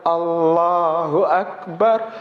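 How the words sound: It is said slowly with deep, heartfelt feeling. The greatness is truly felt. The speaker calls it right.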